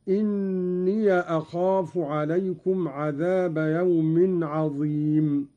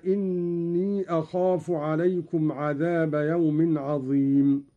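First: إني أخاف said inniya akhafu, the ya opened with a; fatha on the ya. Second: Said in the usual way. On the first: Shown as a demonstration. Sheikh demonstrating Qalun's reading, إني as inniya. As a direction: give إني a final short a before أخاف. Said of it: "قرأ قالون بفتح الياء من إني أخاف، هكذا". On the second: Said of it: "قرأ قالون بفتح الياء من إني".

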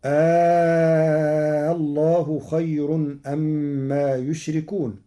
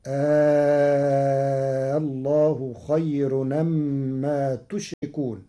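First: Slow chanted verse, يشركون starting with "yu"; first reading of يشركون. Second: Slow chanted verse, تشركون starting with "tu"; ta of address. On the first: Teacher recites before Warsh's change, يشركون as yushrikun. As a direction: hold the long aa, then يشركون as yushrikun. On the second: Teacher shows Warsh's reading, تشركون as tushrikun. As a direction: hold the long aa, then تشركون as tushrikun. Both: Shown as a demonstration. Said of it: "بتاء الخطاب".

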